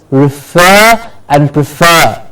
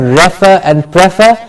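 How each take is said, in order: First: Refer and prefer as "ri-FER", "pri-FER"; right stress. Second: Refer and prefer as "REF-er", "PREF-er"; wrong stress. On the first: Teacher modelling the right refer and prefer, stress on FER. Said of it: "it is refer and prefer". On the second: Teacher showing the wrong refer and prefer, front stress. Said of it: "It's not refer and prefer". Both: Shown as a demonstration.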